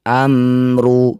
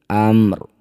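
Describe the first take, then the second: First: The word ends with a short vowel sound. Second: The word ends on the consonant, no vowel.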